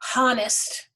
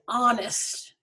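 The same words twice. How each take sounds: First: The word begins with an audible H sound. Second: The word begins directly with a vowel sound. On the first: The speaker calls it wrong. "We don't say honest" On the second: The speaker calls it right. "this H is silent. We don't hear it"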